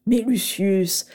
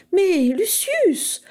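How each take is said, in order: First: Lightly voiced delighted old professor, slow; Slughorn. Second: Lucius drawn out high and slow; clear exclamation. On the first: Professor Slughorn to Lucius, delighted, slow and fond. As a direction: savour the name, pleased and unhurried. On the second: Narcissa to Lucius, loud enough for the professor, drawn-out high exclamation. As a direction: call out brightly and slowly for all to hear. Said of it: "s'exclama-t-elle d'une voix claire". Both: A narrator's reading.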